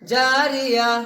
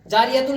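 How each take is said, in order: First: The word ends with an 'h' sound. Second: The word ends with a 'tun' sound. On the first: "इस ता की जगह पर हमें हा पढ़ना है" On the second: "जारिया तुम लिखा हुआ है"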